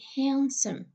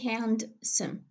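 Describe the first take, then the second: First: The d sound in the middle is silent. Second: The d sound in the middle is pronounced. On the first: The speaker calls it right. "the sound de is not pronounced. We say handsome" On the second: The speaker calls it wrong. "I don't say handsome"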